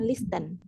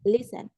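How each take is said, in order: First: A T sound is heard after the S. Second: No T sound is heard after the S. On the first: The speaker calls it wrong. "bukan listen" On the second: The speaker calls it right. "huruf T-nya itu silent saat dibaca"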